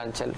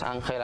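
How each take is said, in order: First: The middle consonant is a ch sound. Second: The middle consonant is a throaty h sound.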